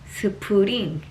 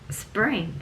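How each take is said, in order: First: It is said with extra vowels, three syllables. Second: It is said as a single syllable. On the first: The speaker calls it wrong. "삼음절이" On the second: The speaker calls it right. "이게 다 이름절이에요"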